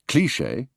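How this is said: Said with a downward English inflection. This is how the British say it. "the English cliché"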